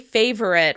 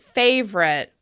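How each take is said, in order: First: The word has three syllables with a schwa. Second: The word has two syllables, no middle vowel. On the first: "Other people may say favorite with a schwa sound before that r" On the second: "I personally pronounce it favorite"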